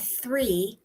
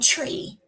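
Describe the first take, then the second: First: The word begins with a 'th' sound. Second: The word begins with a 't' sound. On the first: "T H sound" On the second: "what you hear instead is just the T sound"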